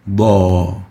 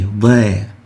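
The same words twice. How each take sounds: First: The vowel is heavy and full-mouthed. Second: The vowel is light and thin. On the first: The speaker calls it right. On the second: The speaker calls it wrong. "we don't say"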